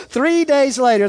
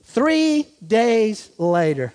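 First: Said in the usual way. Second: Slow, word-by-word "Three days later"; measured reading with long pauses; drawn out. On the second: Shown as a demonstration. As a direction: let each word hang for effect. Slow first reading, then repeated.

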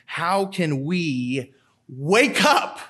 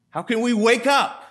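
First: Slow earnest plea to the congregation; slow pleading question. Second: Higher, pressing question; higher urgent plea to the congregation. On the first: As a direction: draw it out slowly, searching. Rhetorical plea, repeated. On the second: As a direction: push the question up, insisting. Repeated plea, raised. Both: Acted.

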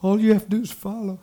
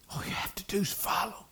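First: Said in the usual way. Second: Hushed, voiceless whisper. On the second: Real, not acted. Preacher repeating the key point to the congregation, whispering. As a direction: drop to a whisper to let it sink in.

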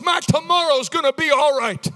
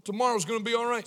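First: High, loud preacher's proclamation; forceful declaration. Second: Said in the usual way. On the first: Shown as a demonstration. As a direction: declare it with force for the crowd to repeat. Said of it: "Say it with force".

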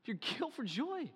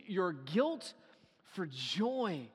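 First: Softer, higher, stress on "joy"; softer emphatic repeat. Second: Said in the usual way. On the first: Shown as a demonstration. Preacher repeats the line to let it sink in, softer. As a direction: let "joy" land gently but pointed. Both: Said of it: "repeated phrase".

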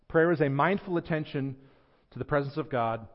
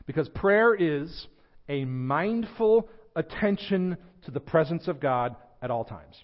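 First: Said in the usual way. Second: Slow and weighty on "mindful"; "a mindful attention" drawn out word by word; slow deliberate definition. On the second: Acted. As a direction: spell it out slowly, stressing "mindful". Defining prayer slowly.

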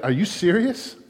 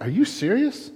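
First: Mock disbelief, lifted pitch; a touch of mocking incredulity; incredulous. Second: Higher, mock-astonished disbelief; hammed-up incredulous God. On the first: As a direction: play God's amused disbelief. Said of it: "We might say something like today, like". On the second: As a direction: scoff at the absurdity, pitch up. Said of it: "in the heavens he's going like".

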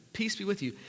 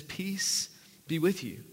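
First: Said in the usual way. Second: Slow, softer peace greeting; gentle. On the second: Shown as a demonstration. Pastor voicing Jesus greeting frightened disciples, slow and gentle. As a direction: let the peace settle slowly. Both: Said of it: "He says it twice here".

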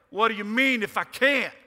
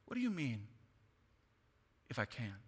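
First: Loud, high, snippy "What do you mean if I can't?"; sarcastic attitude. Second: Said kindly. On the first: Pastor shows how Jesus did not say it, with loud sarcasm. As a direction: throw it back with scornful sarcasm. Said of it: "not with some attitude like". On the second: Pastor shows how Jesus said it to the father, kindly. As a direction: ask it gently, with kindness. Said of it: "I think it was said very kindly". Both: Shown as a demonstration.

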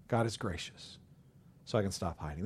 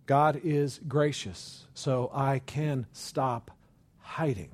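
First: Much softer, lower, almost to oneself; hushed echo. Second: Slow, deliberate, each word weighed; slow earnest statement. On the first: Preacher echoing the line to himself, hushed. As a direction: repeat it softly like a private prayer. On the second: Preacher affirming grace to the congregation, slow and earnest. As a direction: state it slowly as a conviction. Repeated line, first take. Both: Acted.

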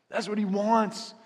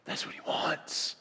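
First: Higher, slower, louder declaration; proclaimed aloud. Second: Slow breathy whisper, barely voiced. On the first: Pastor proclaiming to the congregation, suddenly loud. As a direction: lift it up and proclaim it. Repeats line, bursts out high. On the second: Pastor whispering God's desire to the congregation. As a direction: lean in and whisper it to them. Repeats line, drops to whisper. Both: Real, not acted.

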